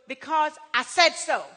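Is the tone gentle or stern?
stern. It is said in a stern, commanding tone.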